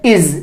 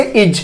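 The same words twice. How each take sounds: First: इज ending in a voiced Z, "iz"; correct Z ending. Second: इज ending in hard J, "ij"; common mispronunciation. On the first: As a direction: model इज as इज़ with buzzing Z. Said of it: "इसको हम कैसे pronounce करेंगे". (इज के अंत में ज़ की ध्वनि) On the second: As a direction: say इज wrongly with J for Z. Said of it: "ज़्यादातर लोग इसको क्या बोलते हैं". (इज के अंत में ज की गलत ध्वनि) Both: Shown as a demonstration.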